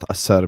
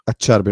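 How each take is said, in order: First: The name is said with English pronunciation. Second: The name is said with Italian pronunciation. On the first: The speaker calls it wrong. "not Acerbi" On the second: The speaker calls it right. "because he's Italian"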